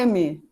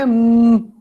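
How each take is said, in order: First: It is said as a full syllable with vowels. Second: It is said as a short bare hum. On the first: This is the name of the letter. The speaker calls it wrong. "o som do M não é M" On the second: This is the sound the letter makes. The speaker calls it right. "O som do M é M"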